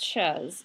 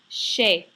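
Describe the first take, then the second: First: The word ends with a z sound. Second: The word ends in a vowel, no z. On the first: The speaker calls it wrong. "not pronounced chez" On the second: The speaker calls it right. "It's pronounced chez"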